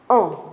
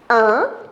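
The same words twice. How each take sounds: First: The vowel is said with rounded, forward lips. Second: The vowel is said with spread, smiling lips. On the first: "on le dit en avançant les lèvres vers l'avant" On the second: "on dit un, un en souriant"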